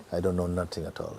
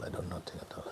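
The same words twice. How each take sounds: First: Said in the usual way. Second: Whispered, much softer, as if to yourself; hushed inward whisper. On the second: Shown as a demonstration. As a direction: let it fall to a bare breath. Repeats line, then whispers it.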